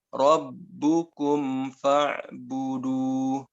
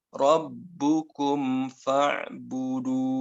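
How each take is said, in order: The two takes are said the same way.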